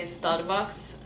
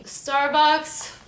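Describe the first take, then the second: First: Starbucks with a rolled R; Lebanese rolling R. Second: Said in the usual way. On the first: Shown as a demonstration. Imagining a Lebanese person saying Starbucks, with rolling R. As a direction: roll the R in Starbucks, Lebanese-style. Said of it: "more of that rolling R". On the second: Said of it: "I would say Starbucks".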